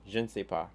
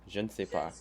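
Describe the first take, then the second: The two takes are said the same way.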